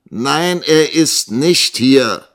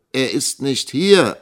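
First: Slow, raised, indignant denial; offended. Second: Slow, raised reply; answering. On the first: Young teacher accused of lying by the schoolmaster, offended. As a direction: insist loudly with wounded pride. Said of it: "erwiderte Nikolas gekränkt". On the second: Young teacher answering the schoolmaster about the missing boy, measured reply. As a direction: state it slowly up to the caller. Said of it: "antwortete Nikolas". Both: A narrator's reading.

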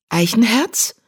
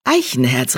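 First: Name mit steigender Frage gerufen; „Eichenherz?“ hoch ansteigend, fragend; fragend überrascht. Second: „Eichenherz,“ tief und fallend, mahnend; Name ernst und streng ausgesprochen; tadelnd. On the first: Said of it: "miaute die Katze". (überrascht nach dem Kater rufend) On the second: Katze tadelt den Kater. (strenger Tadel beim Namen) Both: A narrator's reading.

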